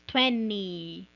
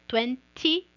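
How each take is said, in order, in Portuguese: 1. O t do meio é omitido completamente. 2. O t do meio é claramente pronunciado. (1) "virar americano e falar como eles" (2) "você pode falar T"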